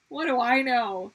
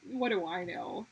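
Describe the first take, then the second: First: What do I know? repeated much louder with stress on do. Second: Said in the usual way. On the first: Shown as a demonstration. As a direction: throw it out louder the second time.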